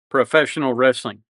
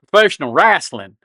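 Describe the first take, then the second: First: Wrestling is said in a standard accent. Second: Wrestling is said in a Southern accent.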